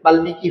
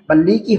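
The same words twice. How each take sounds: First: The m sound is clearly heard in the cluster. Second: The m sound is silent in the cluster. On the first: This is the form actually used. The speaker calls it right. "হয়ে গেছে" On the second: This is the form the usual rule predicts. The speaker calls it wrong. "হওয়ার কথা ছিল"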